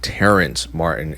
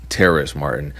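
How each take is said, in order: First: The first name has an n sound before the s. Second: The first name has no n sound before the s. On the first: The speaker calls it wrong. "It is not [name]" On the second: The speaker calls it right. "it's [name]"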